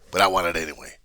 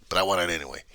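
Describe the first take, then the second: No difference in how they are said.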